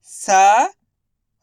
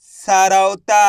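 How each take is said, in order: First: सरौता drawn out as sa, rau, taa with pauses; syllable by syllable. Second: Said in the usual way. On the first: Shown as a demonstration. Teacher sounding out सरौता for learners, syllable by syllable. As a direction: sound out सरौता slowly and loudly. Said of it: "एक अक्षर का उच्चारण करके". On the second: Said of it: "इनको आपस में लाके पढ़ना है".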